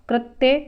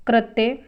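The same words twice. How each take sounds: The two takes are said the same way.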